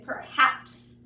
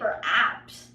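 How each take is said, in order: First: The h sound is clearly heard. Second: The h sound is silent. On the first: The speaker calls it right. "I say perhaps" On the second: The speaker calls it wrong. "I don't say perhaps"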